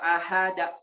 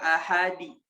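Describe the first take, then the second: First: An extra a vowel follows the final d. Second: An extra i vowel follows the final d. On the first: "enggak boleh" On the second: "enggak boleh"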